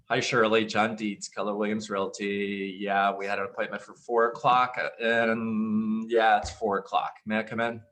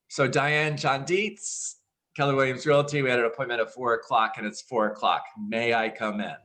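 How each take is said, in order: First: It sounds hesitant and unenthusiastic. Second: It sounds confident and excited.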